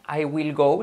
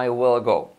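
First: WILL with a plain I vowel, pitched up; wrong will. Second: WILL opened toward "well", falling; correct E-like will. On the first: Teacher showing learners what not to say, plain-I WILL. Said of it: "Recordad que no es will". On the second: Teacher modelling the future for learners, E-like WILL. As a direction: say WILL with I as E and strong L. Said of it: "hagamos la I como una E". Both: Shown as a demonstration.

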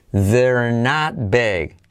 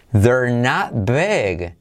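No difference in how they are said.

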